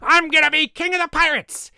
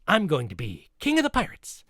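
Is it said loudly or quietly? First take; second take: loudly; quietly. First: It is shouted loudly and exuberantly. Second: It is said more quietly and calmly.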